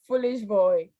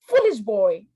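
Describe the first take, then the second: First: It is said softly in a playful tone. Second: It is said loudly in an angry tone. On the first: The speaker is only teasing the listener. "It's like we are playing, like the tone is a bit down" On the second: The speaker is scolding the listener. "the first one sound more angry"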